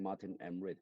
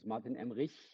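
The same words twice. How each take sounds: First: The name is said with an American accent. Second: The name is said with a German accent.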